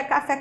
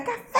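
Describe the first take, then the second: First: Said in the usual way. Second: "café" with FÉ high and stretched; called-out stressed syllable. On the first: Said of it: "Quando você diz". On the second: Shown as a demonstration. Teacher gives an example of the shout, high long FÉ. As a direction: call out "café", holding the FÉ. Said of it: "é quando você grita".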